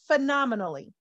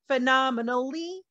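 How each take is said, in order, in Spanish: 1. Las sílabas se unen y se dicen rápido. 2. Las sílabas se separan y se dicen despacio. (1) "realmente se pronuncia phenomenally. Es un poco más rápido" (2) "Esa palabra lo separa"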